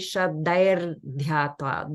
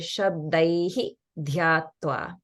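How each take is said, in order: First: The first word ends with an r sound. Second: The first word ends with an added hi syllable. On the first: "The Visarga in Shabdaihi would turn into a R sound" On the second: "or you can say"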